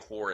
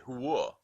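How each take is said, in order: First: It is said in a plain general accent. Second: It is said in a Staten Island accent.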